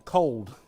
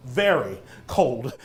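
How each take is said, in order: First: Said in the usual way. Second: Very stressed before cold. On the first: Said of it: "one word explains it all". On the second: Shown as a demonstration. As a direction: lean on the word Very. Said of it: "an adverb to that".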